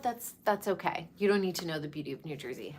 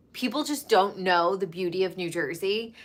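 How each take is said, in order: First: Softer and fast, tossed off under the breath; quick quiet aside. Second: Said in the usual way. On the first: Real, not acted. Vlogger shrugging off outsiders, fast soft aside. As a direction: throw it away quickly and quietly, almost to yourself.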